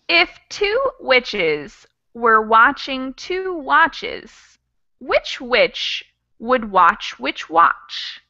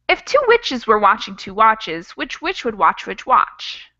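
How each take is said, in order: First: It is said at a slower pace. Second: It is said at a faster pace.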